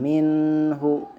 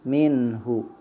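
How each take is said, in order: First: The n sound is held for a long time. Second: The n sound is short, moving straight on. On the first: The speaker calls it wrong. "itu tidak boleh" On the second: The speaker calls it right. "tapi langsung"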